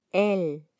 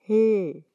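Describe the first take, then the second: First: Said in the usual way. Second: L as a held "lll", no vowel before it; sustained l sound for L; letter sound L. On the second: Shown as a demonstration. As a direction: hum out the bare L consonant. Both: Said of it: "se pronuncia".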